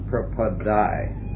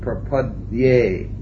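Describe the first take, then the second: First: The last syllable sounds like 'die'. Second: The last syllable sounds like 'dyeh'. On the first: The speaker calls it wrong. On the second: The speaker calls it right.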